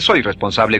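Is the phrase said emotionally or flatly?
flat. It is said flatly, without feeling. The speaker calls it wrong. "no dice"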